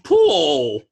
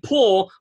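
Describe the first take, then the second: First: The word is drawn out into two syllables. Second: The word is said as one syllable. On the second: "Instead of saying pool"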